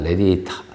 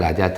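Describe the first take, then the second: First: The first vowel is an 'eh' sound. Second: The first vowel is an open 'ah' sound. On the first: The speaker calls it right. "발음이 그거보다는 레디에이타 하고 하는 겁니다" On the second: The speaker calls it wrong. "이게 원래 저는 라디아타, 라디아타 했었거든요"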